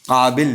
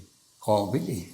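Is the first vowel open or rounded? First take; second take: open; rounded. First: The first vowel is a plain open a. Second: The first vowel is rounded toward o. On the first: This is not how Iranians say it. "ईरानी जो है ना वो काबिल नहीं कहते" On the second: This is how Iranians say it. "काफ के साथ अलिफ को थोड़ा सा मैंने मोड़ दिया वाव की तरफ"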